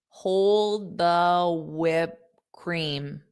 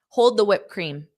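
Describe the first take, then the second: First: The phrase is said slowly. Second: The phrase is said quickly. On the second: "I'll say this fast"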